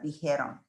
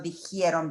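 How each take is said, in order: First: "dijeron" said correctly as "di-HE-ron", the j a rasped h with no i after it; correct pronunciation. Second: "dijeron" said wrongly as "di-hi-eron", with an extra i sliding in after the j; wrong pronunciation. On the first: Teacher giving students the right form, "dijeron" said as "di-he-ron". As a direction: say "dijeron" cleanly as "dee-HEH-ron", no i after the j. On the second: Teacher showing students the mistake, saying "dijeron" as "di-hi-eron". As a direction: say "dijeron" the wrong way, as "dee-hee-EH-ron", slipping an i in after the j.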